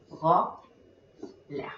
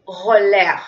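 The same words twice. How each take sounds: First: "Roller" broken in two, ro... ller, with a long gap; separated syllables. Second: Said in the usual way. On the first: Shown as a demonstration. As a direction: say "Roller" lower, one syllable at a time. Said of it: "Entonces separamos". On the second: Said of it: "cuántas sílabas tenga".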